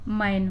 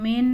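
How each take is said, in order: First: The vowel sounds like the 'a' in cat. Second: The vowel sounds like the 'e' in bed. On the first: The speaker calls it right. "मैन हुआ" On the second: The speaker calls it wrong. "मेन नहीं हुआ"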